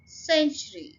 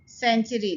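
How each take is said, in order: First: The first syllable carries strong, clear stress. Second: The word is said loosely without clear first-syllable stress. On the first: The speaker calls it right. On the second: The speaker calls it wrong.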